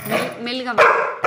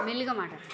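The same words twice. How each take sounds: First: Said in the usual way. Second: "మెల్లిగా మాట్లాడు" said much softer; gentle, hushed "మెల్లిగా" as an example; soft demo. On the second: Shown as a demonstration. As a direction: show the pet how quietly to say it. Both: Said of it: "మెల్లిగా మాట్లాడాలి".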